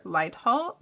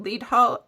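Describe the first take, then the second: First: "Leadhall" with a long i, like "light"; first syllable of "Leadhall" rhymes with "tide"; Leadhall as LIDE-hall. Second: "Leadhall" with a long ee, like "lead the way"; first syllable of "Leadhall" rhymes with "need"; Leadhall as LEED-hall. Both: Shown as a demonstration. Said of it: "is it Leadhall or Leadhall?".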